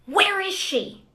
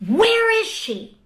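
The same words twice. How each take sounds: First: Raised, slow imitation of a man yelling; calling out the search, raised and slow; retold yell. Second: Higher, louder, slower imitated yell; retold shout. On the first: Congresswoman retelling an intruder's yell, raised and slow. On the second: Congresswoman retelling the man's shout, louder and high. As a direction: let the search call ring out, high and slow. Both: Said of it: "I just start to hear these yells".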